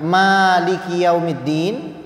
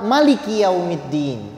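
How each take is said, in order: First: It is read in the Hafs recitation style. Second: It is read in the Warsh recitation style. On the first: "Yang pertama itu qiraah Hafs an Asim" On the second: "qiraah Warash"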